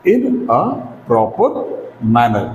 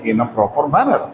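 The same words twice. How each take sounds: First: "in a / proper / manner", a pause after each chunk; word by word. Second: Said in the usual way. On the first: Shown as a demonstration. Teacher dictating the phrase to learners, word by word. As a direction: spell out "in a proper manner" in separate words.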